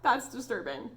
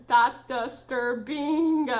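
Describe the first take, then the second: First: Said in the usual way. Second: DISTURBING stretched very slowly, syllable by syllable; very slow, louder, hammed-up DISTURBING; drawn-out emphasis. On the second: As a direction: drag out "disturbing" in mock horror. Repeats it drawn out for effect.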